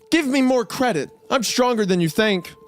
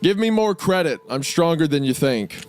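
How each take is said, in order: First: It is read in a hammed-up cartoon voice. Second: It is read in a plain, ordinary voice.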